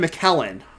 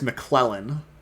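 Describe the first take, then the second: First: No L sound follows the first syllable. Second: An L sound follows the first syllable. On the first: The speaker calls it right. "I was wrong. So it is" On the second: The speaker calls it wrong. "I don't know why I was putting a McClellan in there"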